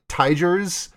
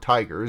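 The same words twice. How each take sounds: First: The G is a soft G sound. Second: The G is a hard G sound.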